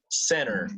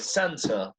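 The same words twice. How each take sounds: First: American accent, with the t nearly silent. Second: British accent, with the t sounded. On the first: "yo estoy hablando en inglés de Estados Unidos, ... la T no sonaba prácticamente" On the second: "¿cómo sonaría en británico? ... Yeah, that's right"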